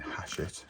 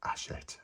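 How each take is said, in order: First: The word begins with an audible H sound. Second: The word begins without any H sound. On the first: The speaker calls it wrong. "I was saying Hachette with a H" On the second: The speaker calls it right. "that's the way it's pronounced"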